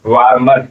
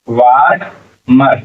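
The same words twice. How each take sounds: First: Said in the usual way. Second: वार मर slowly, in two separate drawn-out parts; sounded out. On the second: Shown as a demonstration. Teacher builds the word for learners, वार मर sounded out slowly. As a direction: stretch वार, pause, then say मर.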